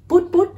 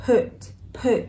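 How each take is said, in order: First: "put" with a tight Vietnamese "u"; clipped Vietnamese-style "put"; mispronounced put. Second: "put" with short relaxed vowel near "ư"; English "put", vowel loosened toward "ư"; correct put. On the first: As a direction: say "put put" wrongly like "pút". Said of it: "nó không đọc là". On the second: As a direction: say "put" as lax "pʊt". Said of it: "mà nó là âm ư". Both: Shown as a demonstration.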